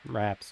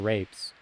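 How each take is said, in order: First: The vowel is short, as in 'apple'. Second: The vowel is long, as in 'ape'. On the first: "I'm going to go with raps" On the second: "depending on how you want to pronounce it"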